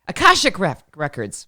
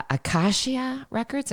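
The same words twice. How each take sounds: First: Self-corrected "Akashic", dropping away on "Records"; corrected pronunciation. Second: "Akashia" ending in "-sha" instead of "-shik"; hesitant "ah-KAH-shee-a" for Akashic; tentative mispronunciation. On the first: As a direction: land on "Akashic" as ah-KAH-shik. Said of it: "How did I F that up". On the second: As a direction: slowly try out "Akashia", unsure of the word. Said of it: "I think I've got it right". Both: Real, not acted.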